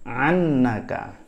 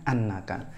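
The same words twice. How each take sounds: First: The word begins with a throaty ain sound. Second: The word begins with a glottal stop. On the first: This is the dialect form of the word. "kalau fathah bacanya pakai ain" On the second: This is the original standard form.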